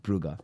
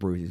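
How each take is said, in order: First: The city name is said the Dutch way. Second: The city name is said the English way. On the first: The speaker calls it right. "it's Brugge" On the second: The speaker calls it wrong. "It's not Bruges"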